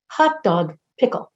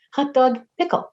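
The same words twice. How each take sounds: First: Said in the usual way. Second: Hot dog pickle chirped higher with a rise; towhee call imitation. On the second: Ornithologists' towhee call, imitated higher and chirpy. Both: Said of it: "translate the eastern towhee's call as".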